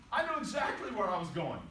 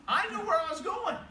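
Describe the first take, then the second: First: Said in the usual way. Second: High, loud "I knew where I was going"; emphatic insistence. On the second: Real, not acted. Indignant insistence, then calmer repeat.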